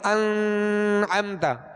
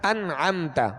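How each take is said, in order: First: The n is held with a nasal hum. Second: The n is said clearly without holding. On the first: The speaker calls it wrong. "इसको हम यूं नहीं पढ़ेंगे अनअमता, तो ये जो आवाज़ ठहराई ये गुन्ना कहलाया" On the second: The speaker calls it right. "गुन्ना नहीं करेंगे"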